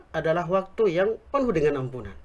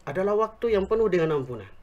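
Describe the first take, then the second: No difference in how they are said.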